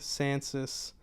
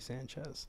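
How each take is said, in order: First: The middle consonant is an 's' sound. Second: The middle consonant is a 'ch' sound. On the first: This is how the family says it. "it's pronounced that way from my family" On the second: This follows the name's Italian origin. "the correct way to say it would be Sanchez"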